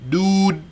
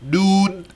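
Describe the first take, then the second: Both takes have the same delivery.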